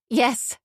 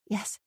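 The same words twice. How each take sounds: First: It is said loudly. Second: It is said quietly.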